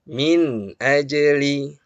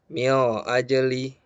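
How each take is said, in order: First: The nun sound is pronounced clearly. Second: The nun sound is blurred and indistinct. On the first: The speaker calls it right. "Harus jelas terdengar" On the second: The speaker calls it wrong. "Jangan juga samar-samar. ... ini juga keliru"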